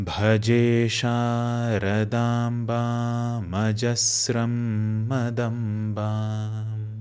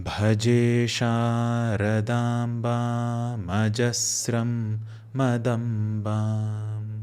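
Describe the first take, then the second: The two takes are said the same way.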